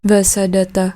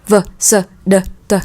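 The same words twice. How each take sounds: First: The consonants are said weakly, without force. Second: The consonants are said clearly, with force. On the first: The speaker calls it wrong. "Nhưng chúng ta không đọc lại v, s, d, t" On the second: The speaker calls it right. "Il y a de la force quand vous parlez"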